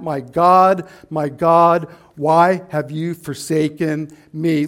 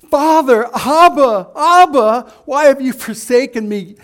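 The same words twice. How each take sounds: First: Low, firm "My God, my God"; a lower, distant cry; impersonal cry. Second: Loud, high anguished cry of "Father, Abba"; pleading cry to Father. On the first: Retold or imitated. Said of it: "instead he cried out". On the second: Pretend. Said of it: "a very impersonal way of crying out to God".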